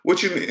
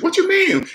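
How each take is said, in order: First: Said in the usual way. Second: Much higher, incredulous squeak of a question; mock the clueless borrower in a shrill-pitched disbelief; high squeaky disbelieving mimic; mocking debt-matrix person. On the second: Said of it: "people in the debt matrix".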